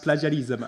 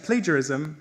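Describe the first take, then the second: First: "plagiarism" as "pla-zha-nee-zum", short first a; plagiarism mispronounced. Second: Said in the usual way. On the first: Shown as a demonstration. Student mock-decrees a new pronunciation, "plagiarism" as plah-zha-neezum. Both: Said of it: "shall be pronounced in the following manner".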